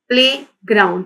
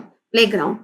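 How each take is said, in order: First: "playground" split into play and ground; two separate beats for "playground"; syllable by syllable. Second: Said in the usual way. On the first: Shown as a demonstration. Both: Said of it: "playground में टू syllables आ रहे हैं".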